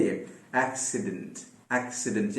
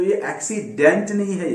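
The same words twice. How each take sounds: First: एक्सीडेंट with a tiny schwa between D and N; quiet teacher's model of एक्सीडेंट; correct schwa. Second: एक्सीडेंट with a full vowel, said as a mistake; mock learner's एक्सीडेंट; wrong pronunciation demo. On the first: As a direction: model एक्सीडेंट softly, the middle vowel nearly gone. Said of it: "D और N के बीच में जो sound आ रहा है, वो फिर से श्वा है". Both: Shown as a demonstration.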